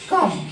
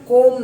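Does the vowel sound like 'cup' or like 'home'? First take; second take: cup; home. First: The vowel is short, like in cup. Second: The vowel is long, like in home. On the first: The speaker calls it right. "जैसे साथियों कम" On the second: The speaker calls it wrong. "इसे हम कोम नहीं पढ़ेंगे"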